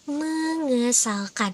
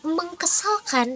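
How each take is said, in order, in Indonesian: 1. Bunyi k melebur ke dalam meng. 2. Bunyi k tetap ada setelah meng. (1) "tapi itu tuh jadinya mengesalkan" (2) "itu tuh bukan jadi mengkesalkan"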